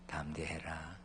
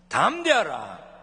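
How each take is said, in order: First: It is said quietly and mildly. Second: It is said loudly and strongly.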